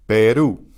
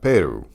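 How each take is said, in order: First: Peru with the final u stressed; Peru, second syllable punched; stress on last syllable of Peru. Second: Peru stressed on the first syllable; wrong stress on Peru. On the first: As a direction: land hard on the u of Peru. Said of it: "that's where the stress is". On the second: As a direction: punch the Pe of Peru, u unstressed. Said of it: "how do we know it's not". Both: Shown as a demonstration.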